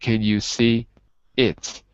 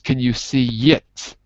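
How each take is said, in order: First: 'See' and 'it' are kept apart, no glide. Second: A y glide links 'see' into 'it'. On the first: The speaker calls it wrong. "instead of" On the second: The speaker calls it right. "So it becomes"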